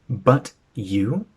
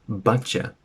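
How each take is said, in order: First: The two words are said separately and fully. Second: The words blend together into one 'cha' sound.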